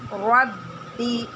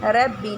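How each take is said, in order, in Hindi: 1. r की आवाज़ मोटी और भरी हुई है। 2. r की आवाज़ बारीक और हल्की है। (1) "रा को मोटा पढ़ेंगे" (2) "जैसे रब्बी नहीं पढ़ेंगे"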